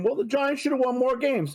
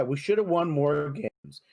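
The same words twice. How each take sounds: First: Mocking critics. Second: Said in the usual way. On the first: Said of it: "a lot of people are saying". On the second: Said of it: "Okay, yeah".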